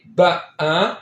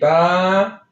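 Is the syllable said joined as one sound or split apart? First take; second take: split; joined. First: The vowel is broken into two separate parts. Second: The vowel is one smooth, continuous long sound. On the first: The speaker calls it wrong. "We don't say ba, a" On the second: The speaker calls it right. "We have to say ba"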